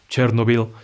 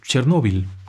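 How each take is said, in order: First: The stress is not on the middle syllable. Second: The stress is on the middle syllable. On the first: The speaker calls it wrong. "hay quienes le dicen Chernobyl" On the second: The speaker calls it right. "es Chernóbil con acento en la O"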